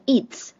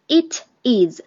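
First: IT'S as one short syllable; contracted form. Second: Said in the usual way. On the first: Shown as a demonstration. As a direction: run "it is" together as "it's". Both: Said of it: "这是它的缩写".

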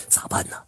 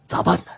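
First: Whispered, barely audible; frightened whisper. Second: Said in the usual way. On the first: A narrator's reading. Grandpa Liu wondering what to do, scared whisper. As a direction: ask yourself in a scared hush. Grandpa panics, repeats question.

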